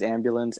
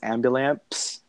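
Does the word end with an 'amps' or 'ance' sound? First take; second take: ance; amps. First: The word ends with an 'ance' sound. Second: The word ends with an 'amps' sound. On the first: "he pronounces ambulance" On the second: "he pronounces ambulance ambulamps"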